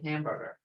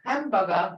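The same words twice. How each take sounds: First: It is pronounced with English sounds. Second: It is pronounced with Creek sounds. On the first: "how they said hamburger" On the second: "They made it into Creeklish"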